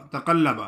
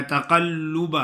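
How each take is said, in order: First: تقلب with zabar on lam, -lab instead of -lub; wrong pronunciation demo. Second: تقلب with pesh on lam, ending -lub; correct pronunciation. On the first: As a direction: imitate the common mistake تقلب with a short a on the lam. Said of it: "اکثر لوگ پڑھتے ہیں". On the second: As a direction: say تقلب the right way, u sound on the lam. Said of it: "لام کا پیش پڑھنا ہے". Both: Shown as a demonstration.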